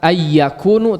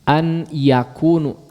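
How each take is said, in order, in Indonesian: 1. N melebur ke dalam y yang dobel. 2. N diucapkan jelas sebelum y.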